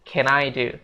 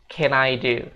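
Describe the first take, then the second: Both takes have the same delivery.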